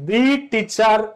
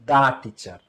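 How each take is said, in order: First: 'The' is said with a long ee vowel. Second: 'The' is said with a short uh vowel. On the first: The speaker calls it wrong. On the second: The speaker calls it right.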